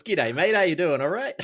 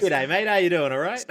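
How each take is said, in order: First: Broad Aussie accent. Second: Hammed-up ocker Australian greeting, pitched higher and louder; broad Aussie accent. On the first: Guest repeats the greeting that annoys his girlfriend. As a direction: ham up the Australian twang again, pitched up. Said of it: "grates her nerves". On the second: Guest shows the hosts his broad Australian greeting. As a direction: lay on a thick Australian accent, high and bright. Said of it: "my girlfriend's least favourite thing is when I say that". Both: Shown as a demonstration.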